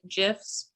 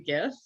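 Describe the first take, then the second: First: It begins with a soft G sound. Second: It begins with a hard G sound. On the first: This is how the format's creator said it. The speaker calls it wrong. "the creator of GIFs pronounced it GIFs, but I think he was wrong" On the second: The G stands for graphic. The speaker calls it right. "I say GIF because it's G, it's graphic"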